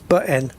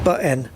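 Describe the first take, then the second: Both takes have the same delivery.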